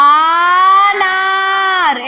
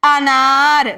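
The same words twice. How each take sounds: First: ఆనార్ with a very drawn-out opening ఆ; long initial A. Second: అనార్ with a short అ, then long నా; short initial A. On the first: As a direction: stretch the first vowel of ఆనార్ long and loud. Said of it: "ఆనార్ అని పలకట్లే కదా". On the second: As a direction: keep the first vowel of అనార్ brief and stretch నార్. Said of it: "ఏమని చెప్తున్నాం? అనార్ అని". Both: Shown as a demonstration.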